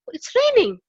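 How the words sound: It sounds surprised.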